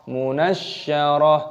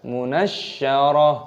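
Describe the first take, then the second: No difference in how they are said.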